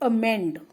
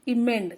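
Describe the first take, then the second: First: The word begins with an 'a' sound. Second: The word begins with an 'e' sound. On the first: The speaker calls it right. "उसको कहते हैं अमेंड" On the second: The speaker calls it wrong. "लेकिन नहीं इमेंड नहीं"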